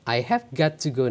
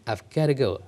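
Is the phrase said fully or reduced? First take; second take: fully; reduced. First: Each word is said fully and slowly. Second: The words are run together fast and reduced.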